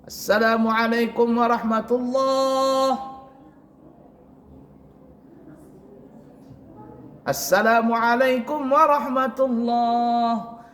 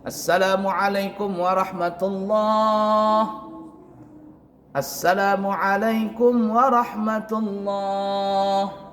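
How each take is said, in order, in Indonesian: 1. Ada jeda panjang di antara kedua salam itu. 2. Ada jeda singkat, sekali tarikan napas, di antara kedua salam itu. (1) "ada yang lama" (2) "Artinya satu kali nafas"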